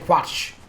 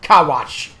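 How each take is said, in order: First: The name starts with a plain kw sound. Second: The name starts with a separate ka syllable. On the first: The speaker calls it right. "I am going to continue to say Quatch" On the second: The speaker calls it wrong. "you don't say Ka when you say K"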